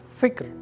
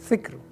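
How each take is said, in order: The two takes are said the same way.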